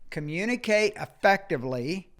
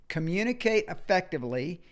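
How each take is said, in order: Both takes have the same delivery.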